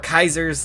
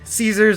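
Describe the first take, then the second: First: The name starts with a K sound. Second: The name starts with an S sound.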